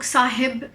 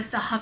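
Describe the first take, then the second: First: साहिब with an "i" in the second syllable; variant pronunciation. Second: साहब with an "a" in the second syllable; common pronunciation. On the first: Teacher showing learners how some people say it, साहिब as "saa-hib". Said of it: "कुछ लोग साहिब भी बोलते हैं". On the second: Teacher giving the form she has mostly heard, साहब as "saa-hab". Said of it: "मगर मैंने ज़्यादातर साहब सुना है". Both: Shown as a demonstration.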